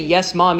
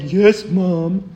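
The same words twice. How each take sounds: First: It is said in a willing, pleasant tone. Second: It is said in a reluctant, annoyed tone.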